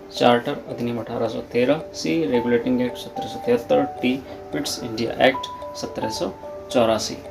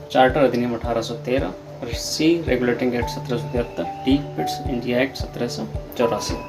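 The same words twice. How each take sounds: The two takes are said the same way.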